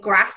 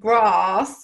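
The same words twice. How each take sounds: First: It is said in her own accent. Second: It is said in a southern accent.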